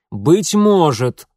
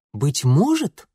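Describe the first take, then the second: First: Loud, drawn-out «Быть может», higher and falling at the end; roared, emphatic «может»; barked exclamation. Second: МОЖЕТ rising sharply as a question; «может» lifted into an incredulous question; questioning repeat. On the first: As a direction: bark it out slowly and forcefully. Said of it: "рявкнул отец". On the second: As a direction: echo it back, pitch climbing on «может». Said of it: "повторил отец". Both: A narrator's reading.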